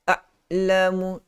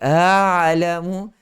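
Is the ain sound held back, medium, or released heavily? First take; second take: held back; released heavily. First: The ain is held back tightly. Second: The ain releases a lot of breath. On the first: "Dia suara tertahan" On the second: "Dia melepaskan suara yang uh, banyak"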